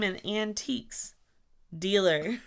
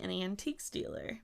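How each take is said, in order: First: Each word is said clearly and separately. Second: The s runs into the next word. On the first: The speaker calls it right. "I'll enunciate" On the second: The speaker calls it wrong. "It sounds like you're saying antique stealer"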